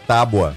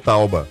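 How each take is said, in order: First: The b comes before the vowel: tá-bua. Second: The vowel comes before the b: tau-ba. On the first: The speaker calls it right. "É tábua" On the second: The speaker calls it wrong. "Você falou tauba"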